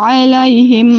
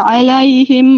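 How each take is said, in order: No difference in how they are said.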